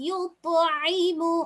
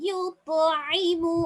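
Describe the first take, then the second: No difference in how they are said.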